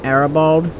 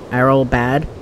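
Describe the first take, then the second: First: The last syllable has an L sound. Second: The last syllable has no L sound. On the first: The speaker calls it wrong. "I remember I was saying Arrowbald" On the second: The speaker calls it right. "It's Arrowbad"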